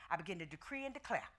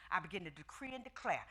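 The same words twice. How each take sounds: The two takes are said the same way.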